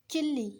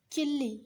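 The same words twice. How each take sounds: The two takes are said the same way.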